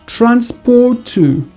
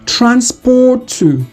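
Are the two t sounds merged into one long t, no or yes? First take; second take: yes; yes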